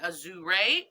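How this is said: The word is said with a Japanese-style pronunciation. "the Japanese in me wants to pronounce that that way"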